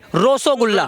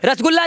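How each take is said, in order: First: The first syllable has an 'o' vowel. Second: The first syllable has an 'a' vowel. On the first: The speaker calls it right. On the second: The speaker calls it wrong. "रसगुल्ला नहीं"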